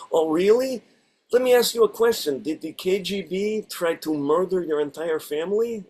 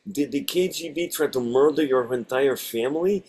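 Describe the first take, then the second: First: Put-on Russian accent. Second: Put-on lightly Russian-accented line; a hint of Russian accent. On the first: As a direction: ham up a thick Russian accent. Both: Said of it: "I get to do ... a Russian accent".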